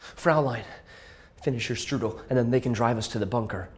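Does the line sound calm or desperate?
calm. The line is read without much desperation.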